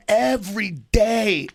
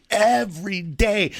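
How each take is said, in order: Both takes have the same delivery.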